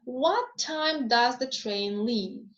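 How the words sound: The voice falls low at the end. The speaker is asking for new information. "if my voice falls, so if I choose low fall"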